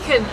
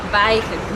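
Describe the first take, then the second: First: The first vowel sounds like a short 'ee'. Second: The first vowel sounds like an 'ay' sound. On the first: This is how the locals say the town's name. The speaker calls it right. "they pronounce this place Viken, or Vichen" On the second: This follows the usual rule for that spelling. The speaker calls it wrong. "I J is normally an A. sound"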